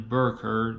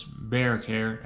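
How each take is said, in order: First: "Bear Care" said like "burr curr"; thick local vowels. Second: Said in the usual way. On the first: Shown as a demonstration. Philly zoo job seeker names the job, "Bear Care" as "burr curr". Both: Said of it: "that's Bear Care".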